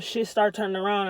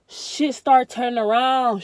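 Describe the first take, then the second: First: Said in the usual way. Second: Louder and slow, leaning on start; emphatic. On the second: Real, not acted. Telling viewers life improved after cutting people off, slow emphatic. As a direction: savour the turnaround, slow and loud.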